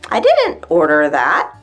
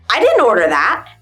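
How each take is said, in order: First: It sounds softer with gentler, less aggressive intonation. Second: It sounds abrupt, short and almost aggressive. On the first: The speaker calls it right. "changed the intonation, I can make this phrase sound less aggressive" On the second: The speaker calls it wrong. "sounds very abrupt and short, almost aggressive"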